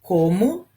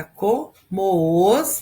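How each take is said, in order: First: Said in the usual way. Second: "como os" slowly, as co-moos; vowels joined. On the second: Shown as a demonstration. Teacher shows joined vowels, "como os" drawn out as co-moos. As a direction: run "como" into "os", one long syllable moos. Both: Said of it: "Eu vou uni-las".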